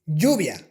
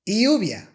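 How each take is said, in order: First: The y sound is the Spanish y. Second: The y sound is the English y. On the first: The speaker calls it right. "The correct way to pronounce these sounds is" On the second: The speaker calls it wrong. "if I want to pronounce these words with the English Y"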